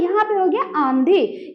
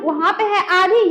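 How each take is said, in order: First: आंधी with the आ nasalised through the nose; teacher showing a nasal vowel. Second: आधी said through the mouth only, no nasal sound; teacher contrasting oral and nasal vowels; plain. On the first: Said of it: "नाक में आवाज चला गया". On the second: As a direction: give आधी clean and oral. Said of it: "आप जो बोलते हैं आंधी". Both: Shown as a demonstration.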